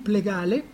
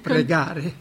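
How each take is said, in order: First: The word is said with an L sound. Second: The word is said with an R sound. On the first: The speaker calls it wrong. "Allora diceva, fammi plegare" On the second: The speaker calls it right. "non riusciva ancora a pronunciare la R"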